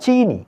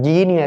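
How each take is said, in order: First: The word begins with an s sound. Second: The word begins with a j sound. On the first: The speaker calls it right. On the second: The speaker calls it wrong. "ஜீனி அல்ல"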